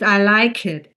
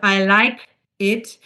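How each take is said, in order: First: The k sound links smoothly into the next word. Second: Each word is pronounced separately, not linked. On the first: The speaker calls it right. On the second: The speaker calls it wrong. "instead of"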